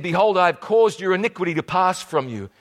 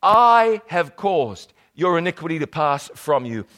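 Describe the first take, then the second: First: Hurried reading of the verse; rushing through the scripture line; read too fast. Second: The verse reread at an unhurried pace; slow down and give each word its weight; read again, slower. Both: Shown as a demonstration. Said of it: "I'm reading this just too fast".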